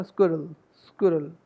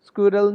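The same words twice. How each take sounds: First: स्क्विरल squeezed short, like skurl; correct pronunciation. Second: स्क्विरल in two beats with a full middle vowel; wrong pronunciation. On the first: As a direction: reduce the second vowel of स्क्विरल. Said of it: "नहीं बोलना". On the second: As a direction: say स्क्विरल as SKYOO-ral. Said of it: "स्क्विरल नहीं बोलना". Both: Shown as a demonstration.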